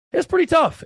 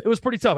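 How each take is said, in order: First: Pretty tough shouted high. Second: Said in the usual way. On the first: Real, not acted.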